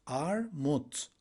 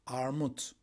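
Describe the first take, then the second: First: "Armut" split in two, ar, mut; syllable by syllable. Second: Said in the usual way. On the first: Shown as a demonstration. Teacher confirming the word for pear, "Armut" syllable by syllable. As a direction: pause between the syllables of "Armut".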